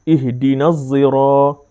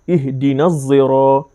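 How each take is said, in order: The two takes are said the same way.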